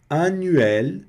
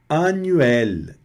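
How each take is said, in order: Both takes have the same delivery.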